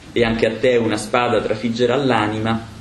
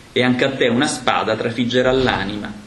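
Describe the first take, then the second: Both takes have the same delivery.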